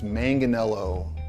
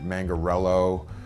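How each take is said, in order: First: The name is said with no R sound inside. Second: The name is said with an R sound inside. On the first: The speaker calls it right. "It's it's Manganello" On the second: The speaker calls it wrong. "people that throw R's in it"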